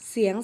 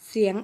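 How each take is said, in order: Both takes have the same delivery.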